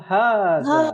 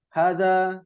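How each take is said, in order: First: The first vowel is said long. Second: The first vowel is said short. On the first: The speaker calls it right. "yang betul" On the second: The speaker calls it wrong. "Maka jangan bacanya pendek"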